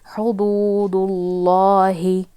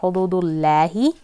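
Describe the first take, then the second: First: The L sound is heavy and full. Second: The L sound is light and thin. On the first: The speaker calls it right. "it is going to be heavy again" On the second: The speaker calls it wrong. "it is not hududullahi"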